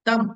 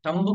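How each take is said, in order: First: The final b sound is silent. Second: The final b sound is pronounced. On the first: The speaker calls it right. "అది కాదు, తంబు కాదు, తమ్" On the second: The speaker calls it wrong. "తంబు కాదు"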